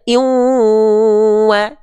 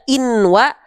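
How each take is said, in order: First: The n merges into the following w sound. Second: The n sound is clearly pronounced before wa. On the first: The speaker calls it right. "tapi dibaca iwa, dimasukkan ennya ke huruf yang dijumpainya" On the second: The speaker calls it wrong. "maka nggak dibaca inwa"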